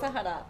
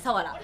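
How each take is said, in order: First: The middle consonant is an h sound. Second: The middle consonant is a w sound. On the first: The speaker calls it wrong. "サハラじゃない" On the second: The speaker calls it right.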